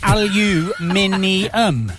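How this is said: The word is said with five syllables, ending in '-ee-um'. This is the British way of saying it. "it's aluminium"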